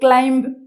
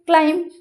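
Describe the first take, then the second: First: The final B sound is pronounced. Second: The final B sound is left out. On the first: The speaker calls it wrong. "କ୍ଲାଇମ୍ବ ଏମିତି କହୁଛେ କି?" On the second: The speaker calls it right. "ବି letter. (silent)"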